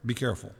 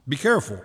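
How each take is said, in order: First: Repeated much softer and lower. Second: Said in the usual way. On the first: Shown as a demonstration. Pastor warns the congregation again, hushed and low. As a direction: drop the voice for the second warning.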